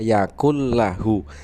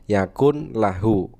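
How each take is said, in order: First: The n merges into the following l. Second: The n is pronounced before the l. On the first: This is how it is recited. "tetapi dibacanya yakul lahu" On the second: This is how it is written. "tulisannya yakun lahu"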